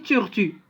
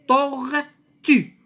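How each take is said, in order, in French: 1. Les syllabes sont dites simplement, sans amplification. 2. Les syllabes sont dites amplifiées et allongées. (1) "On n'a pas dit tortue" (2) "on l'amplifie un peu"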